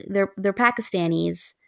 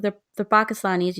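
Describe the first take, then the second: First: "Pakistanis" said as PACK-iss-TAN-eez, with flat a sounds; "Pakistanis" mimicked with a flat American "a" in both pak and stan; "Pakistanis" imitated as pack-iss-tan-eez, the American way. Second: "Pakistanis" said as pah-kiss-TAH-neez, with open ah sounds; "Pakistanis" with a broad "ah" in pak and stan, the Desi way; "Pakistanis" said pah-kiss-tah-neez, the way it should sound; correct pronunciation. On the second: Retold or imitated. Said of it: "You say, I mean".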